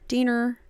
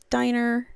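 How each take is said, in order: First: The name is said the other way, not diner. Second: The name sounds like the word diner. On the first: The speaker calls it right. "but it's Diener" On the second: The speaker calls it wrong. "I always want to say Diner"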